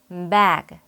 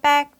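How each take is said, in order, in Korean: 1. 영어식 강세와 유성음으로 발음했어요. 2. 한국어식의 평평한 소리로 발음했어요. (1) "어떻게 읽어야 하는지 같이 읽어볼까요?" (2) "백 이렇게 말하면 안 되겠죠?"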